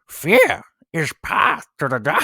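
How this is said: It is said in a Yoda voice.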